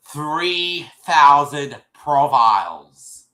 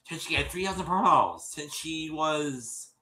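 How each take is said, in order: First: "thousand" dragged out slow and loud; "Three thousand profiles" hammered slowly, word by word; stress on thousand. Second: Said in the usual way. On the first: Shown as a demonstration.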